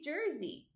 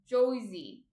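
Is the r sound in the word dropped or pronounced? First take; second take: pronounced; dropped. First: The r sound is clearly pronounced. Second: The r sound is dropped, sounding like Josie. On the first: This is how locals actually say it. The speaker calls it right. "They all say Jersey" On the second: This is a mocking caricature of the local accent. The speaker calls it wrong. "No one says uh"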